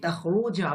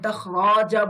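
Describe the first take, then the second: First: The vowel after the r is u. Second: The vowel after the r is a. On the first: The speaker calls it right. "আমি তাখরু বলছি" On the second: The speaker calls it wrong. "আমি তাখরাজা বলছি না"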